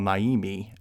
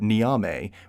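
First: The name begins with a 'nigh' sound. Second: The name begins with a 'nee' sound. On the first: The speaker calls it wrong. "for some reason I call Naimi" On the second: The speaker calls it right. "The other is the sky god Niame"

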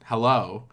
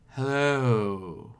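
First: The word is said at normal length. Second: The word is stretched out long.

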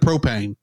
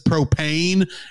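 First: The second syllable is kept short. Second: The second syllable is drawn out longer. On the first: The speaker calls it right. "the pain is shorter" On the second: The speaker calls it wrong. "He says it just a little bit wrong"

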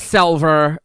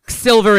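First: The first vowel sounds like 'eh'. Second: The first vowel sounds like 'ih'. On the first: "needs to be selver. Like that's the key vowel shift" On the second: "every I, like in silver"

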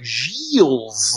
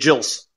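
First: The name is drawn out with extra syllables. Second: The name is said quickly and carelessly. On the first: The person tries too hard to say it right. "they try to put way too much effort into it ... like you're almost trying to like add an extra syllable to it" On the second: The person does not care how it is said. "they don't even care"

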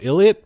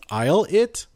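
First: The first syllable sounds like 'ill'. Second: The first syllable sounds like 'eye'. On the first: This is how the name looked at first reading. The speaker calls it wrong. "When I first read it, I thought it was Ill-It" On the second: This is the proper pronunciation of the name. The speaker calls it right. "if in the proper pronunciation and the English vocabulary, it's I'll-It"

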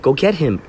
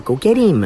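First: The h at the start of him is pronounced. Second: The h is dropped, so him sounds like eem. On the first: "she wouldn't say him" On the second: "She'd say, go get him. It was like, eem. There was no H"

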